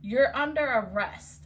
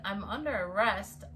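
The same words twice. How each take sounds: First: Firm, louder imitation of a cop; arresting officer. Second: Retold disbelief in her usual pitch; questioning the arrest. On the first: Cop announces the arrest to her, firmly imitated. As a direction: mimic an officer laying down the law. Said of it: "He said". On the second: She answers the arresting cop, mildly disbelieving. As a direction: echo the officer's words back, understated. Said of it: "And I said".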